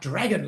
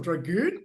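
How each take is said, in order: First: It sounds like the word dragon. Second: The second syllable has a long oo sound.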